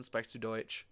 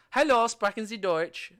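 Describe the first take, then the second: First: Low, soft, offhand German question; casual German phrase. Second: Higher, clearly projected German greeting; bright-pitched polite German inquiry; formal German phrase. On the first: Tourist asking a younger German, casual soft question. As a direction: toss off the German casually, lower and quieter. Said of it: "if it's a younger person". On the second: Tourist asking a stranger in Germany, formal German greeting. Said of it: "you know, German". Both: Shown as a demonstration.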